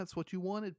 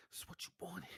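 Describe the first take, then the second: First: Said in the usual way. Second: Soft teasing whisper. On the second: Acted. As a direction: whisper it very quietly. Whispered repeat of teasing line.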